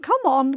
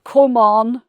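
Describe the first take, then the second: First: The vowel in 'come' is light and plain. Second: The vowel in 'come' is dark and deep. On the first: The speaker calls it wrong. "So not come on" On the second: The speaker calls it right. "It's much darker and deeper"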